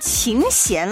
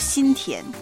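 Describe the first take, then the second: First: The name is said at a normal pace. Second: The name is said quickly and blurred together. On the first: "他们会跟琴弦老师打招呼" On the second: "但是说快一点呢，也可以说心田"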